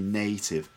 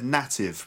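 First: The first vowel is the 'A' sound. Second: The first vowel is a different, non-'A' sound. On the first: The speaker calls it right. "but it's actually native, A, the A sound" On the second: The speaker calls it wrong. "you said native, but something sounds like native"

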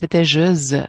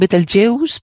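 First: It is pronounced the French way. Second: It is pronounced the English way. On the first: "En francés" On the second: "En inglés se llaman Betelgeuse"

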